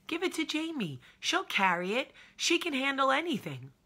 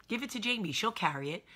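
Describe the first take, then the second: First: High, loud mock ad slogan; hammed-up commercial voice. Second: Lightly voiced ad jingle, a bit higher; mock commercial voice. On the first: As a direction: sell herself like the cereal ad kid. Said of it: "That's me". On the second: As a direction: toss off the slogan like a TV ad. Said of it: "Remember that commercial".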